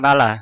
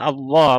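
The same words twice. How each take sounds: First: The l sound is single and short. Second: The l sound is doubled and held. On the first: The speaker calls it wrong. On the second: The speaker calls it right. "double al"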